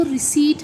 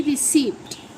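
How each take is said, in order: First: रिसीट as ri-SEET, silent p; long ee, plain t in रिसीट; correct pronunciation. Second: रिसिप्ट slow, with the p sounded; separated p-t ending on रिसिप्ट; wrong pronunciation. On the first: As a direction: model रिसीट without any p. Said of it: "इसका सही जो इसकी pronunciation". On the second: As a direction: draw out रिसिप्ट as ri-SEEPT. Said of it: "ना कि". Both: Shown as a demonstration.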